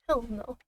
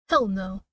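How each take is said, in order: First: Said in the usual way. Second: Loud, punchy Hell no; emphatic refusal. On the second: Real, not acted. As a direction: bark out a flat refusal. Refusing to voice Judith's lines.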